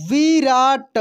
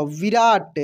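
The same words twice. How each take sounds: First: विराट drawn out as vi, raa, ta; syllable by syllable. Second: Said in the usual way. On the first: Shown as a demonstration. Teacher reading for learners, विराट syllable by syllable. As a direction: stretch each syllable of विराट. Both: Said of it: "अब direct पढ़ते हैं".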